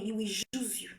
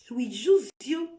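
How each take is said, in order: First: Dropped almost to a whisper; hushed, ominous aside; hushed warning. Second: Said in the usual way. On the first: Real, not acted. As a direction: lean in and say it low, like a secret warning. Warning repeated, first take hushed.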